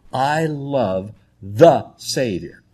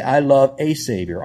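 First: "the" drawn out and weighted, very slow; stress on the. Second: Said in the usual way. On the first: Shown as a demonstration. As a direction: lean slowly on "the" before Savior. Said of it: "Notice the word the". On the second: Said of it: "It doesn't say".

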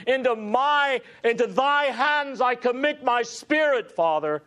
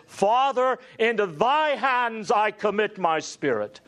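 First: Great final cry. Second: A loud cry read from scripture. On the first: Preacher voicing the dying Christ's cry to the Father. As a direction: pour the last strength into the cry. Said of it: "he musters one great final cry". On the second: Preacher crying out the words of Jesus. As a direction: lift the voice high for the cry. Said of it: "crying out with a loud voice". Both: Retold or imitated.

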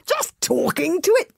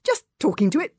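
First: Astonished gasp. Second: Awkward, embarrassed reply; embarrassed mumble. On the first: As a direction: gasp it in disbelief. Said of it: "gasped Fishlegs in astonishment". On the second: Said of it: "mumbled Hiccup, very embarrassed". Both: Acted.

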